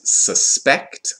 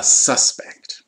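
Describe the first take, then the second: First: Suspect stressed on the second syllable, su-SPECT; verb stress. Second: Suspect stressed on the first syllable, SUS-pect; noun stress. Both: Shown as a demonstration. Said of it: "it's just a question of emphasis".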